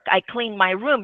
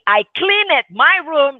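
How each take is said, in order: First: The ending blends in without an extra syllable. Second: The ending is said as a separate syllable. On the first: The speaker calls it right. "it's very difficult to notice any difference" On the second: The speaker calls it wrong. "now you're listening, right? So that is something that we shouldn't say"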